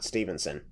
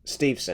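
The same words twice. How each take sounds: First: The name has an n sound before -son. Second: The name has no n sound before -son. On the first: The speaker calls it wrong. "not Stevenson" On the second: The speaker calls it right. "there's not even an N in his name"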